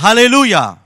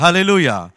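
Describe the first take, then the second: First: Halleluja called out high and loud as the lead prompt. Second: Said in the usual way. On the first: Retold or imitated. Preacher leading the deaf boy, calling Halleluja loudly. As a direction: belt out Halleluja for the boy to repeat. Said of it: "Haben wir gesagt". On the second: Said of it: "Der hat gesagt".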